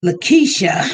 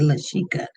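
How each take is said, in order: First: "Lakeisha" said la-KEE-sha, k before the sh; corrected pronunciation. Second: "Lashika" said la-SHEE-ka, sh before the k; mistaken pronunciation. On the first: Host correcting a misread viewer's name, corrected pronunciation. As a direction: hit "Lakeisha" on a louder KEE, ending sha. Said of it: "it's almost spelled like Lashika". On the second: Host owning a misread viewer's name, mistaken pronunciation. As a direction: say "Lashika" with sh in the middle, k last. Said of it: "I gotta really look at it". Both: Shown as a demonstration.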